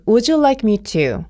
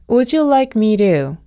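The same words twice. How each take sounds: First: The t in "to" is a crisp, full t. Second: The t in "to" is a soft, l-like flap.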